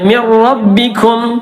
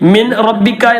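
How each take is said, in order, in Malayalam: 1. 'n' അടുത്ത 'r' യിൽ പൂർണ്ണമായി ലയിക്കുന്നു. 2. 'n' 'r' ന് മുമ്പ് വ്യക്തമായി ഉച്ചരിക്കുന്നു. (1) "ഇദ്ഗാം ബിലാ ഉന്നിയാണ്" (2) "എന്ന് പറയരുത്"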